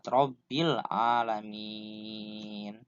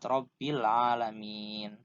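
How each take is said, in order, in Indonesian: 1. Vokal panjang di akhir ditahan enam harakat. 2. Vokal panjang di akhir ditahan empat harakat. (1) "yang paling utama dibaca enam ha harokat" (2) "Atau empat harokat"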